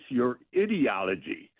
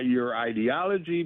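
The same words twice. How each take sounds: First: Ideology starts with an 'id' sound like idiot. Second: Ideology starts with an 'eye' sound. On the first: The speaker calls it wrong. "Trying to make him sound like an idiot" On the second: The speaker calls it right. "the person should have asked"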